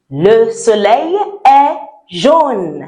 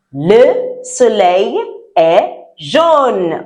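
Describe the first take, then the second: First: Said in the usual way. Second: "Le soleil est jaune" said very slowly and clearly, stress on "jaune"; slow model sentence. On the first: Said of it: "if I want to say". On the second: Shown as a demonstration. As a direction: spell out "Le soleil est jaune" for the class to echo. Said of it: "Repeat after".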